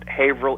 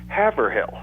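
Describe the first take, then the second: First: It is said the traditional local way. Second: It is said the newer, changed way. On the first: This is the original local pronunciation. "is pronounced Haverhill, England, just like we do here" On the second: Newcomers from the city are changing the pronunciation. "more people are starting to pronounce it Haverhill"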